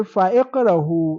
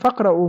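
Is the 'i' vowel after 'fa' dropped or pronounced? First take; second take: pronounced; dropped. First: A glottal stop and i follow fa. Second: The vowel after fa is dropped and linked. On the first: The speaker calls it wrong. "you don't say fa'iqrahu" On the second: The speaker calls it right. "You just say Faqra'u ma tayassara min"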